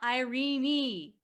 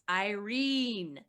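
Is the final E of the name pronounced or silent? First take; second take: pronounced; silent. First: The final E is pronounced, three syllables. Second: The final E is silent, two syllables. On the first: The speaker calls it wrong. "not Irene" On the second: The speaker calls it right. "The last E is a magic E, so it doesn't say anything"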